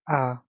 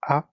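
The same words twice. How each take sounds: First: The vowel is said long. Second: The vowel is said short.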